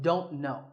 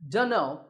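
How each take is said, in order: First: Each word is pronounced fully and separately. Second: The words are blended into one short reduced word.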